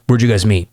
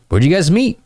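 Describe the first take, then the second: First: Linear, uninflected question; boring interview mode. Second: High, eager question lifting at the end; bouncy, curious banter; playful follow-up question. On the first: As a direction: ask it by rote, without interest. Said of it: "That's interview mode". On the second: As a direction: ask it high and interested. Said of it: "some playful banter". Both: Shown as a demonstration.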